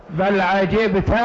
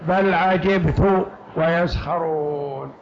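First: عجبت said slowly as 'ajibta; fatha on the ta. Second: عجبت recited slowly as 'ajibtu; damma on the ta. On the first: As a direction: draw out عجبت, ending on an open "ta". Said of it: "على قراءة فتح التاء". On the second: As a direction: draw out the verse, عجبت ending on "tu". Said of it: "على قراءة ضم التاء". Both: Shown as a demonstration.

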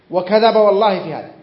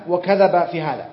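First: Louder indignant repeat. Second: Said in the usual way. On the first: Acted. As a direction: punch وكذب, louder on the repeat. Preacher repeats denunciation with oath. (تكرار غاضب بصوت أعلى على "وكذب")

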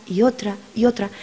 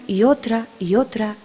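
The two takes are said the same way.

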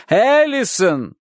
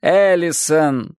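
First: Higher slow drawn-out call; calling higher tearfully. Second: Slow drawn-out call; calling tearfully. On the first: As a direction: call again more desperately. Repeated louder. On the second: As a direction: call her name in distress. Girl sobbing calls her name. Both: A narrator's reading.

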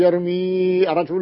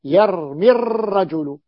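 First: يرمي الرجل with the ي held long, yarmii ar-rajul; wrong long vowel. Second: يرمي الرجل with the ي unsaid, yarmi-r-rajul, short i; dropped long vowel. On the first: Teacher showing students the incorrect reading, long vowel kept. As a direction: say يرمي الرجل keeping a full long ii before الرجل. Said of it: "لا يصح". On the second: Teacher showing students the correct reading, vowel dropped. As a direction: say يرمي الرجل gliding straight into the doubled r. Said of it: "في النطق ماذا أقول؟". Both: Shown as a demonstration.

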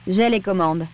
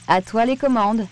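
First: Firm, level procedural reply. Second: "À toi les commandes" lifted toward the end; handing over controls. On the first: Pascal confirming to Sam that she has control, firm. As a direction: confirm it steadily, by the book. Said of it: "répondit-elle d'une voix ferme". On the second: Sam handing Pascal the controls, "commandes" raised as a cue. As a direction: lift the pitch on "commandes", as a cue. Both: A narrator's reading.

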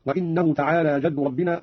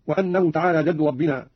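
First: وإنه opened as "wa-innahu"; kasra on hamza. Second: Said in the usual way. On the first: Shown as a demonstration. Teacher demonstrating Qalun's reading, وإنه said "wa-innahu". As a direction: slowly read وإنه with i after the hamza. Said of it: "قرأ قالون بكسر الهمزة هكذا". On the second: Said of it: "قوله تعالى".

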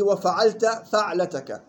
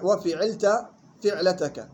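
First: وفعلت فعلتك said "wa-fa'alta fa'latak"; correct fatha reading. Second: Slow وفعلت فعلتك said "wa-fi'ilta fi'latak"; common misreading with kasra. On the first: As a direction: open "fa" starting both words of وفعلت فعلتك. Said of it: "بفتح الفاء فيهما". (وفعلت فعلتك بفتح الفاء) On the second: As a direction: mimic the mistake, "fi" starting both words of وفعلت فعلتك. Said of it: "بقرأوها كيف؟". (وفعلت فعلتك بكسر الفاء خطأً) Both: Shown as a demonstration.

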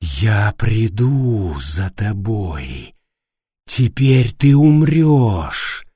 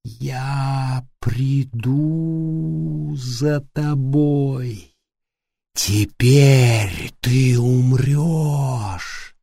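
First: Slow, eerie, drawn-out menace; low, dragged threat from a speaker; creepy voice. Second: Slow, eerie, drawn-out menace; whisper-threat like a horror villain; creepy voice. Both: A narrator's reading. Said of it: "прервал её жуткий голос".

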